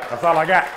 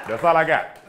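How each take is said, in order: No difference in how they are said.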